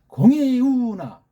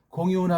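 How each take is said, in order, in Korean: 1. '이'와 '우' 음절에 강하게 힘을 줘요. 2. 모든 음절을 힘주지 않고 고르게 말해요. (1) "이자랑 우자에 힘을 주고" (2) "그냥 공이우나 하게 되면 밋밋해서"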